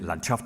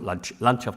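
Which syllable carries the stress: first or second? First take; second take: second; first. First: The stress is on the second syllable. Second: The stress is on the first syllable. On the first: This is how the word is said in Russian. "Landschaft en ruso; En ruso se dice acentuando la segunda sílaba" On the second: This is how the word is said in German. "Landschaft en alemán; en alemán en la primera"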